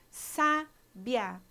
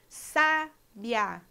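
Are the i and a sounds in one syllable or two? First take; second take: one; one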